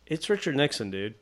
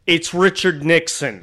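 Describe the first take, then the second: First: Softened, tentative correction; careful politeness. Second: Slow, emphatic put-down; disgusted insistence. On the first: Artist not wanting to alienate anybody, gently polite. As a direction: break it gently, a little softer. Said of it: "I'm trying to be really polite about it". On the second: Gruff woman to the clueless man, slow withering insistence. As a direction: spell it out for an idiot. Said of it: "gave him another dirty look and was like". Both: Retold or imitated.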